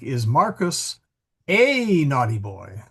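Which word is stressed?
boy. The stress falls on the word boy. The question is really about being a boy. "So the focus shifts depending upon where you put the ne"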